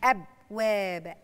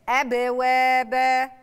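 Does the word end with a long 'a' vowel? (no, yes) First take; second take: no; yes. First: The word ends on the b with no vowel. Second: The word ends with a long a vowel. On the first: The speaker calls it wrong. "مش أبواب" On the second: The speaker calls it right.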